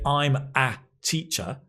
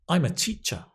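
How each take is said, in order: First: The word 'a' has a full 'ay' sound. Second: The word 'a' is a weak 'uh' sound. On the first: The speaker calls it wrong. "you're not going to hear people say" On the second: The speaker calls it right. "weak form, unstressed, a, schwa"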